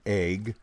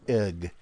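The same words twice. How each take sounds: First: The vowel sounds like 'ay' as in day. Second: The vowel is a plain short 'e' sound. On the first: "Pacific Northwest pronunciation. A-Y-G, sort of" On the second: "But elsewhere, it's egg"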